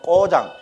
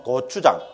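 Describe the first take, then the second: First: 꼬장 squashed into two syllables, Gyeongsang style; blunt Gyeongsang 꼬장 with tense first consonant; Gyeongsang dialect. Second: 고추장 in standard Seoul pronunciation; Seoul speech. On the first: Teacher comparing dialects, blunt Gyeongsang pronunciation. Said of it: "경상도 말로만". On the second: Teacher comparing dialects, standard Seoul pronunciation. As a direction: say 고추장 the Seoul way, three clear syllables. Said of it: "서울말로만". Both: Shown as a demonstration.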